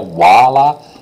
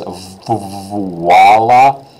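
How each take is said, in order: First: Said quickly, with the V sound nearly dropped. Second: Said slowly, with the V sound clearly pronounced. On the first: "it sounds like voila" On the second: "if you hear it slowly"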